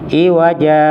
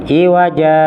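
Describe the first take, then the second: Both takes have the same delivery.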